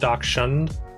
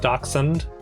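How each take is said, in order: First: The 'sh' sound is strong and drawn out. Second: The 'sh' sound is soft and barely heard. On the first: The speaker calls it wrong. "not Dachshund" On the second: The speaker calls it right. "So it's Dachshund"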